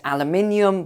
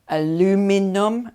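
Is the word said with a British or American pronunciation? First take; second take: British; American. First: It has the British five-syllable pronunciation. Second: It has the American four-syllable pronunciation.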